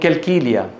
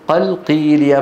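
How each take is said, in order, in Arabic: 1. يُنطق الحرفان كافًا عادية. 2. يُنطق الحرفان قافًا عميقة. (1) "ينطقونها بايه؟ بالكاف" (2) "يعني قلقيليا"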